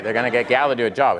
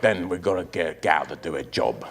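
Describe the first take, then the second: First: Said in the usual way. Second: Put-on low, quiet London gangster accent; thick, mumbled Cockney accent. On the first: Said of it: "And I'm like". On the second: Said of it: "impression of an accent".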